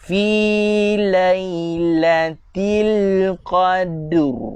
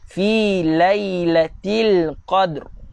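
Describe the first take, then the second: First: The phrase is said very slowly. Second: The phrase is said at normal speed. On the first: "Kalau saya baca secara slow-mo" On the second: "kelajuan standard punya"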